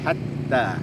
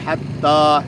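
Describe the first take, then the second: First: The a vowel is light and thin. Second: The a vowel is heavy and full. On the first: The speaker calls it right. "tipis saja a-nya hatta" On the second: The speaker calls it wrong.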